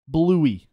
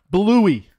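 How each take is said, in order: First: Said in the usual way. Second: Louder, higher callout of the name; excited callout. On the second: Real, not acted. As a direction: hit the name again with more excitement. Name repeated, bigger.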